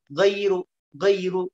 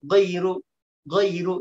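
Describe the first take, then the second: Both takes have the same delivery.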